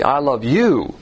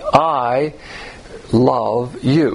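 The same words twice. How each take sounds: First: The word you carries the stress. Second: The word I carries the stress. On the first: The loved one is attractive to the lover. "So personal love would be, where there's something attractive about the object" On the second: The love comes from the lover's own integrity. "you can best encapsulate the difference by using the inflection of your voice"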